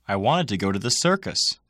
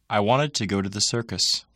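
First: Circus gets extra stress. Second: The sentence has normal, even stress.

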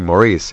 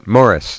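First: The name is said the American way. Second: The name is said the non-American way. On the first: "Americans say" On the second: "now you pronounced it correctly"

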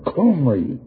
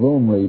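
First: The name begins with a throaty, cough-like sound. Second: The name begins with a plain vowel. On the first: "the cough as you say it" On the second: "if you drop the guttural sound of Omri"

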